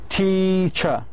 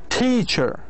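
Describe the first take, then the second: First: The stressed syllable is longer, higher and louder. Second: The stressed syllable is said more loudly. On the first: "So all three combined together"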